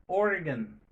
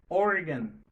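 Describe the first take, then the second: No difference in how they are said.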